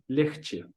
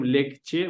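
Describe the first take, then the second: First: It is pronounced the way people normally say it. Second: It is pronounced exactly as it is spelled. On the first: The speaker calls it right. "мы говорим легче" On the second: The speaker calls it wrong. "это пишется как легче, легче, но мы не говорим легче"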